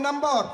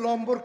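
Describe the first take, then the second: First: The word begins with an n sound. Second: The word begins with an l sound. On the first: This is how people say it today. "নাম্বার কইতে সহজ লাগে" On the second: This is how people in the country used to say it. "আগে আঙ্গু দেশের মানুষ কত ছয় লম্বর"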